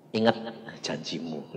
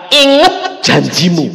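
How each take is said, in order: First: Soft, low "Ingat janjimu"; hushed, low "janjimu"; quiet reminder. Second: Slow, loud "Ingat janjimu"; booming, slow "Ingat"; loud command. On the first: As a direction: murmur it like a voice in the heart. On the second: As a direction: proclaim it like a voice from heaven. God's voice recalled loudly. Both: Acted.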